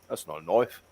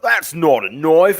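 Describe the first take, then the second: First: The line is delivered in a calm, understated way. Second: The line is delivered in an exaggerated, overacted way. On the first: The speaker calls it right. "He was it was very calm" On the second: The speaker calls it wrong. "they were just you know hamming it up"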